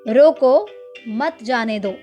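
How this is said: There is a pause right after 'roko'.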